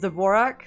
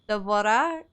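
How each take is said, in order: First: The name keeps its final consonant sound. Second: The name drops its final consonant sound. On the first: This is how Hungarians say the name. "Hungarians would pronounce the Dvorak's name as Dvorak" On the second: This is how French people might say the name. "how would the French people pronounce it? ... they don't pronounce the, the last letters usually"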